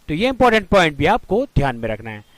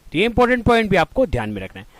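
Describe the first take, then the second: Both takes have the same delivery.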